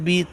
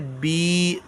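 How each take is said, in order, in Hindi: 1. स्वर छोटा है और जल्दी बोला जाता है। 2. स्वर खिंचा हुआ और लंबा है। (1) "इसको जल्दी पढ़ना होता है" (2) "थोड़ा खींच के"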